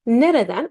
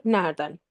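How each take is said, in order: First: "Nereden" in three syllables, ne-re-den; careful "Nereden", middle e kept; full written form. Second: "nereden" shortened to NER-den; two-syllable "nereden", run together as nerden; spoken contracted form. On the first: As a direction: sound every e in "Nereden". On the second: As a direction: drop the middle e of "nereden". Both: Shown as a demonstration. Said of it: "but we say nerede".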